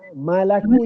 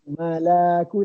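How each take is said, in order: First: The vowel after the L is short. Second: The vowel after the L is drawn out. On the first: The speaker calls it right. "Malaku je, ... Dia lam tu satu harakat je" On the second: The speaker calls it wrong. "tadi akak panjangkan malaku, tak nak ... jangan malaku"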